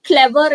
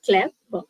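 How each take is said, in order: First: Said in the usual way. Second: "Clever" broken in two, Clev... er; split into syllables. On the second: Shown as a demonstration. Teacher checking the syllable count, "Clever" split in two. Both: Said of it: "It is a two syllable word".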